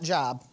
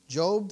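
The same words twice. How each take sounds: First: The vowel is short, rhyming with rob. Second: The vowel is long, rhyming with robe. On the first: The speaker calls it wrong. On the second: The speaker calls it right.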